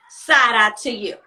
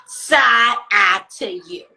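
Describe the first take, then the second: First: Said in the usual way. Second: Low and drawn out, louder; slow side eye. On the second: Shown as a demonstration. To messy roommates, a slow loud side eye. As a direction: stretch every word with contempt.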